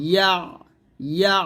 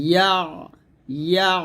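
The two takes are said the same way.

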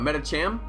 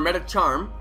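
First: The last syllable sounds like 'cham'. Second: The last syllable sounds like 'charm'. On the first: The speaker calls it right. "No, Metacham" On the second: The speaker calls it wrong. "I said charm"

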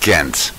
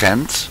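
First: Ghent is said the English way. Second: Ghent is said the Dutch way. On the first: "in American or English" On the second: "We say Ghent"

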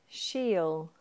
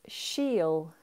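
The two takes are said the same way.

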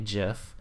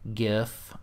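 First: GIF is pronounced the non-phonetic way. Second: GIF is pronounced the phonetic way.

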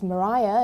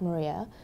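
First: The middle syllable has an 'eye' sound. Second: The middle syllable has an 'ee' sound. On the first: This is how the astronomer's name is said. The speaker calls it right. "is pronounced Mariah" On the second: This is how the speaker's own name is said. The speaker calls it wrong. "and not Maria"

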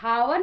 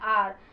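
First: The word begins with an h sound. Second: The word begins with a vowel sound. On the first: The speaker calls it wrong. "इसको हम लोग हावर नहीं कहते" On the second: The speaker calls it right. "इसको हम लोग कहते हैं आर"

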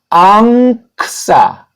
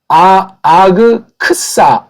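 First: The first syllable ends in an ng sound. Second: The first syllable has a plain g sound. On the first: The speaker calls it right. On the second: The speaker calls it wrong. "아그크사가 아니고"

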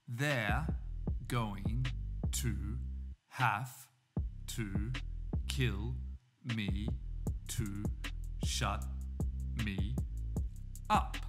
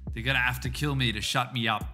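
First: Each word is said separately, without linking. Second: The words run together with reduced, linked sounds. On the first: "we say these words separately" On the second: "And that's how we get"

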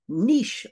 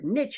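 First: Niche is said with a non-American pronunciation. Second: Niche is said with an American pronunciation.

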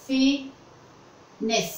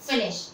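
First: The word does not end with an 'sh' sound. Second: The word ends with a clear 'sh' sound. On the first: The speaker calls it wrong. "लेकिन कुछ लोग इसको कैसे pronounce करते हैं, like this" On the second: The speaker calls it right. "SH का sound ... श, शलगम वाला श"

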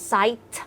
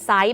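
First: The final t sound is clearly pronounced. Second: The ending is unclear and sounds like side. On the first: The speaker calls it right. "ออกเสียง site ออกมาด้วย" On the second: The speaker calls it wrong. "ถ้าออกเสียงไม่ชัดกลายเป็น site แบบside"

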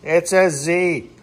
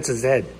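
First: The letter is said the American way, zee. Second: The letter is said the Canadian way, zed.

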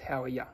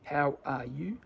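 First: The word 'you' is reduced to 'ya'. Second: The word 'you' has a full 'oo' vowel.

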